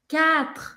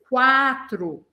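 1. Nenhum som de 'w' vem depois do som de k. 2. Um som de 'w' vem depois do som de k. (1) "esse U aí do meio não é pronunciado em francês" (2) "a tendência é você querer falar como em português"

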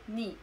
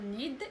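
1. صوت d في الآخر لا ينطق. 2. صوت d في الآخر ينطق. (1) "إنما ني" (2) "لا تنطقنا نقول نيد"

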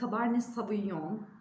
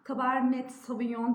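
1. Fransızca bir telaffuzla söyleniyor. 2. Fransızca olmayan bir telaffuzla söyleniyor.

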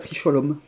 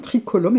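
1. La consonne du milieu est un 'sh' doux. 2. La consonne du milieu est un 'k' dur. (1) "et pas tricholum" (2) "On dit bien tricolum"

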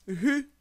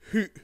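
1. La voyelle se termine ouverte, sans coup de glotte. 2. La voyelle se termine brusquement, avec un coup de glotte. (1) "La syllabe hu" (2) "Avec le coup de glotte"

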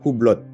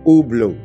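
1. Huruf H dan T di akhir dilafalkan. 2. Huruf H dan T di akhir diam. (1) "Sering banget orang baca merek ini adalah Hublot" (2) "Jadi nggak ada huruf H, nggak ada huruf T-nya"

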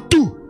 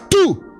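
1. Le mot est dit à un volume normal. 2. Le mot est dit beaucoup plus fort. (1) "Dis avec moi tout" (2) "plus fort que ça"

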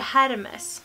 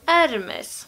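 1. Namnet börjar med ett hörbart H-ljud. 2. Namnet börjar direkt med vokalen. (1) "så är inte det här Hermes" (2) "Det här uttalas Hermes"

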